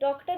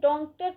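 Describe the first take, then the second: First: The first vowel is an open, oral o. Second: The first vowel is nasalized. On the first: The speaker calls it right. "डॉक्टर ही पढ़ेंगे" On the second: The speaker calls it wrong. "यहाँ पे हम डॉक्टर तो पढ़ेंगे नहीं"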